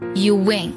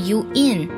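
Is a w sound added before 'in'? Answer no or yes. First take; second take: yes; no. First: A w sound links 'you' to 'in'. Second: No w sound comes between 'you' and 'in'. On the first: "有个非常明显的w 的加音，所以听起来是you win" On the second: "而不是you in"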